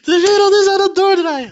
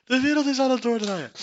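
First: High, loud laughing squeal; hilarisch uitroepen. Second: High squeal at normal volume, falling; hilarische verzuchting. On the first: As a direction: cry it out, cracking up at the absurdity. Exclaims in hilarity at absurdity. (hilarisch, gierend uitgeroepen) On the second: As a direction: repeat it as a spent, high-pitched wail. Repeats it, winding down from laughter. (hoge verzuchting na het lachen) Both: Real, not acted.

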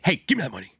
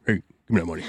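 First: Robber voice. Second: Low, disguised robber voice. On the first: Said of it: "this robber voice". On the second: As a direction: growl it low like a mugger. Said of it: "Alex Jones again". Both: Pretend.

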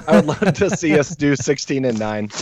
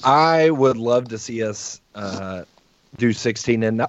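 First: Said in the usual way. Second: Interrupted by hiccups, talking through them; hiccupping mid-sentence. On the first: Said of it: "oh, excuse me". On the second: Real, not acted. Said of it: "I have the hiccups".

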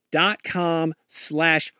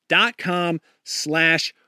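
No difference in how they are said.

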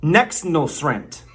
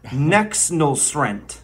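First: Nexnulsrent said slowly, syllable by syllable; mock lesson word. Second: Nexnulsrent drawn out even slower; mock lesson word. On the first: Teaching the Bidenese word Nexnulsrent, slow. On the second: Repeating Nexnulsrent for the class, very slow. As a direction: savour Nexnulsrent like a language tutor. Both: Shown as a demonstration. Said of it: "The first word I'm going to teach you".

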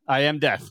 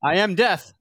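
First: Said in the usual way. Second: Grim reaper voice. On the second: Pretend. Playing ominous Roosevelt.

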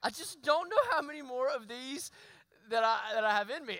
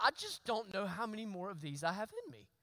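First: Weary laugh. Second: Wry laugh. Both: Retold or imitated. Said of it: "But I thought".

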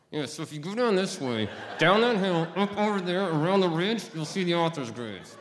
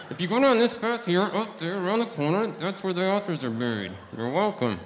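First: Jaw wired shut, words squeezed out; through gritted teeth. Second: Wired jaw, straining to project; through gritted teeth, louder. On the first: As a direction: talk without opening the mouth, high and loud. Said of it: "with my mouth wired shut". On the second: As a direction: push it out loud through clenched teeth. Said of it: "because I can't project". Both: Retold or imitated.

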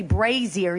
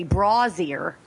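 First: Brazier said BRAY-zher; "brazier" with long A, BRAY-zher; retold "wrong" brazier. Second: Brazier said BRAW-zee-er, slowly; "brazier" with AW vowel, drawn out; retold "right" brazier. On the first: Quoting a viewer on the wrong way, BRAY-zher. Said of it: "'cause you don't say brazier". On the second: Quoting a viewer on the right way, BRAW-zee-er. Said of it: "you say brazier".

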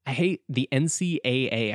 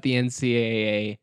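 First: N C A A spelled out robotically, each letter separate; crisp robotic letters in N C A A. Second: Said in the usual way. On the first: Shown as a demonstration. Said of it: "I always feel like I have to say it like a robot". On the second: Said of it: "I have to say it like a robot".

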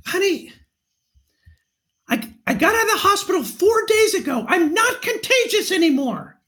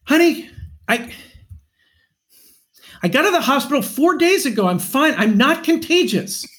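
First: High, strained pretend yell; mock yell. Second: High, exasperated husband without real shouting; mock argument, real voice. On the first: Husband pretending to argue with his wife on a trail, mock yell. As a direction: yell it high, as if mid-argument, without real volume. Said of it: "I would yell out". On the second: Shown as a demonstration. Husband demonstrating his staged trail argument, mock exasperation. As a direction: argue it in your own voice, pitched up. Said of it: "let's hear what it sounded like".

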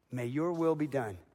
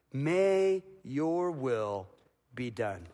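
First: Said in the usual way. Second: Slow prayerful. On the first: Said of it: "the simplest, most powerful prayer". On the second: Shown as a demonstration. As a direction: stretch it out like a whispered surrender. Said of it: "he's praying the cup would pass".

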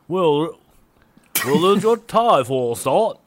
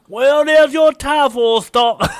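First: High, loud attempt at Liverpool accent sliding into Cockney. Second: Very high, loud, drawn-out Cockney; hammed-up Cockney accent. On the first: Co-host taking a stab at [name]'s reply, botched Liverpool accent. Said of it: "that was like my cock". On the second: Co-host showing off his Cockney take on [name], hammy Cockney. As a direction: belt it out in a mock Cockney accent. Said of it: "I could do my Cockney one".

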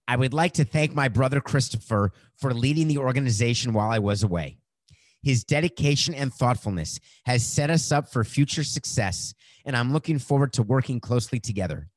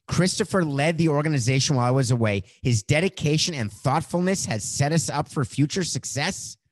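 First: Rushed without a breath; all in one breath. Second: Said in the usual way. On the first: Shown as a demonstration. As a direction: read the whole tweet without pausing for air. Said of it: "I'm out of breath". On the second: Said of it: "Let me just make sure I got that right".

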